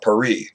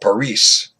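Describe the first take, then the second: First: The word is said with a French pronunciation. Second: The word is said with a Spanish pronunciation. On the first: "If you're a Frenchman, you call it" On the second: "from Spain, you call it"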